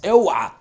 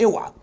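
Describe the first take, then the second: First: اوعى shouted loud as a sharp warning. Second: Said in the usual way. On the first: Real, not acted. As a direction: bark out اوعى like a teacher stopping a mistake. Teacher warns against common mistake. (تحذير بصوت عالي)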